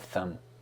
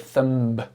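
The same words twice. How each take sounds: First: No b sound is heard at the end. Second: A b sound is heard at the end. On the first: The speaker calls it right. "You do not pronounce the B. You just say the thumb" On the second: The speaker calls it wrong. "Do not say the thumb. B"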